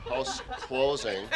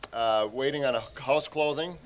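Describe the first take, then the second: First: "closing" said clearly with a laugh; corrected word, laughing. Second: "clothing" said for closing, lips stiff with cold; cold-slurred word. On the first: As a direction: fix it to "House closing" and laugh. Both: Real, not acted. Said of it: "I'm so cold I can't even speak".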